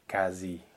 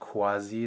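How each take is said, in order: First: The word begins with a plain k sound. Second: The word begins with a kw sound. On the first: The speaker calls it right. "like just a K" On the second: The speaker calls it wrong. "not KW like it would be in Italian"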